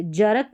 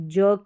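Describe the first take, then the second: First: जरक in two syllables, "ja-ruk"; जरक with a vowel after the R; wrong full R. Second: जर्क as one syllable, "juk", R dropped; जर्क said "jawk" without the R; silent R. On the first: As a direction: sound the R fully in जरक. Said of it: "जरक नहीं". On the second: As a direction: let the R go in जर्क. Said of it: "जर्क करके बोलेंगे". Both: Shown as a demonstration.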